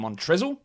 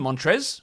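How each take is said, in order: First: The final L sound is clearly pronounced. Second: The final L sound is left silent. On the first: "it really should be Montrezl" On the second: "with that silent L"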